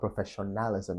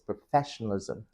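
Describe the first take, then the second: First: The stress falls away from the 'fes' syllable. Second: The stress falls on the 'fes' syllable. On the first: The speaker calls it wrong. "So it's not professionalism" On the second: The speaker calls it right. "it's professionalism ... where do you stress? Fe"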